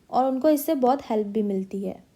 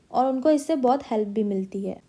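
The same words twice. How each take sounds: The two takes are said the same way.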